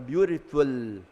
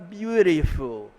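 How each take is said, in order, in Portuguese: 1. É dito com sotaque indiano. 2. É dito com sotaque americano. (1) "você vai para a Índia, ele fala" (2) "o americano fala"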